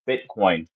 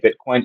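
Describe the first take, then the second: First: The word is said at a slow pace. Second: The word is said at a quick pace.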